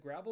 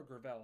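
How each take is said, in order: First: "Gravel" as GRAV-ul, short a stressed; "Gravel" rhyming with travel; first-syllable stress. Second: "Gravel" as gruh-VELL, weak first vowel; "Gravel" rhyming with propel; second-syllable stress. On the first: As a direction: say "Gravel" like the word for small stones. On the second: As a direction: put the stress on the end of "Gravel". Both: Shown as a demonstration. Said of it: "Is it Gravel or Gravel?".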